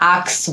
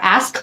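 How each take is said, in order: First: The k sound comes before the s. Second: The s sound comes before the k. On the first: The speaker calls it wrong. "আমাদের ক সাউন্ডটা আগে আসে" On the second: The speaker calls it right. "আমরা অ্যাস্ক বলার কথা"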